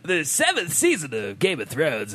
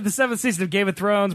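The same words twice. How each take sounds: First: It is read in a put-on radio voice. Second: It is read in a normal speaking voice.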